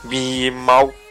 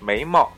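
First: It is said in Chongqing dialect. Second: It is said in standard Mandarin.

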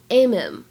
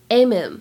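First: The h is dropped and the words link. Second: The h is dropped and the words link.

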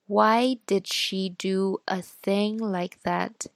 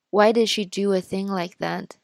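First: It is read at a slower speaking speed. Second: It is read at a normal speaking speed. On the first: "然后再读一遍慢一点的" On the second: "先读一遍正常语速的"

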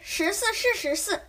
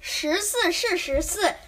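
First: It is said faster than normal. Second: It is said at a normal speed.

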